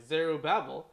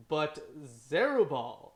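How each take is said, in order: First: Zerubbabel said carefully as zeh-ROO-bah-bel; corrected Zerubbabel. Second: Zerubbabel said zeh-ROO-bawl, dropping a syllable; mispronounced Zerubbabel. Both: Shown as a demonstration. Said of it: "sor-, sorry".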